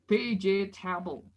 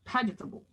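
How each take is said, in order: First: The word is said with more syllables. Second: The word is said with fewer syllables. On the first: The speaker calls it wrong. "bukan vegetable, bukan tiga" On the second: The speaker calls it right. "bukan tiga syllable tapi one syllable"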